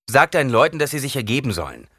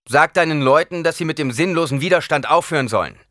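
First: High loud order, rushed end; commanding. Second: Loud, higher command to stop. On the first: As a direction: snap out the order to surrender. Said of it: "befahl Paul". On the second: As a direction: order them to give up, loud and high. Paul orders surrender. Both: Acted. (befehlend, laut und höher)

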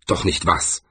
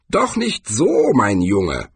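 First: Low-key, wary question; suspicious. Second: Put-on old man chiding. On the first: A narrator's reading. Swordsman questioning old Cohen, suspicious. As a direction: ask it warily, with falling tune. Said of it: "fragte er misstrauisch". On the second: Cohen corrects young swordsman.

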